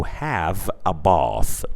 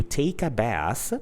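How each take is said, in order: First: Bath with a long open British ah. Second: Bath with a flat American a. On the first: Teacher contrasting British bath with the American one. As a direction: say bath as bahth, long and slow. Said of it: "whereas in British English". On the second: Teacher contrasting American bath with the British one. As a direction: say bath with the short a of cat. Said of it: "So in American English". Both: Shown as a demonstration.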